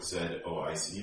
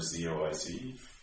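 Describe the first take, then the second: First: The Z is said as 'zed', Canadian style. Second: The Z is said as 'zee', American style.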